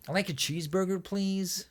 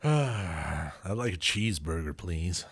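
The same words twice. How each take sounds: First: Higher, softer nasal American voice; nasal American accent. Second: Slow, careful American accent. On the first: Coaching the co-host on American, nasal accent. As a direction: push the American accent through the nose. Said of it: "you gotta go nasally". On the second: Put on the spot by the co-host, American accent. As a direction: put on your best American, unhurried. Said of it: "Give me your best American accent". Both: Shown as a demonstration.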